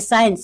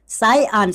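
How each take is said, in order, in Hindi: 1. यह शब्द एक चिकने 'sains' की तरह एक साथ जुड़ा हुआ बोला जाता है। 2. यह शब्द दो हिस्सों में बँटा हुआ बोला जाता है, 'sai-ansh'। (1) "कुछ लोग पढ़ते पढ़ते हैं इसको साइंस" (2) "इसका जो उच्चारण परफेक्ट होता है वो साई अंश होता है"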